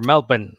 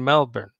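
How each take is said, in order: First: Melbourne is said the Australian way. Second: Melbourne is said in a non-Australian way.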